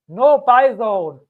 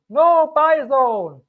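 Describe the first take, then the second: First: "No buy zone" slow and loud, each word punched; firm warning. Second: "No buy zone" higher, slower and louder, "No" hit hardest; emphatic repeat. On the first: Crypto YouTuber warns viewers off buying, stressed. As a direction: stamp out the warning. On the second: Crypto YouTuber repeats his warning, more stressed. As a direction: drive it home even harder. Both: Shown as a demonstration. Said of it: "Don't buy here".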